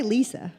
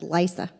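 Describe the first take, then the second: First: Said in the usual way. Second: Southern belle drawing LISA out as "Lysa"; Southern country accent. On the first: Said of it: "like I say Lisa". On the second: Retold or imitated. Imitating her mama saying her name, Southern country accent. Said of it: "kind of country kind of accent".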